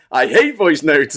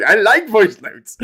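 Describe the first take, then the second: First: Said in the usual way. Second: Chirpy reply. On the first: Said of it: "Diz is like". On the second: Retold or imitated. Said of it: "Nick and Diff is like".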